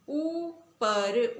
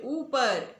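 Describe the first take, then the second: First: ऊपर with the opening ऊ held very slowly; stretched demo word. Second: Said in the usual way. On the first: Shown as a demonstration. Teacher drilling pupils on long ऊ, drawn-out vowel. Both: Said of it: "उन्हें किस प्रकार बोलेंगे".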